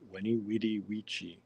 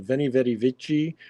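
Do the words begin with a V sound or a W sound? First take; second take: W sound; V sound. First: The words begin with a W sound. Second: The words begin with a V sound.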